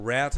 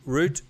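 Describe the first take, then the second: First: The word is said the American way. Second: The word is said the British way.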